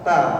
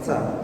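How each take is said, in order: First: The t is clean without any hiss. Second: The t has a hissing s-like sound. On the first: The speaker calls it right. "makhraj huruf ta itu tempat tumbuhnya gigi seri atas" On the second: The speaker calls it wrong. "ada bunyinya kayak kalau dalam bahasa Indonesia itu T sama S"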